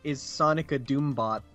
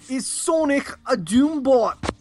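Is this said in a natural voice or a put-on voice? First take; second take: natural; put-on. First: It is said in a plain, natural voice. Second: It is said in a put-on, imitated voice. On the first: The speaker calls it wrong. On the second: The speaker calls it right.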